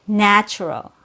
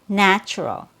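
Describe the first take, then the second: No difference in how they are said.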